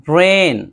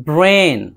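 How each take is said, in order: No difference in how they are said.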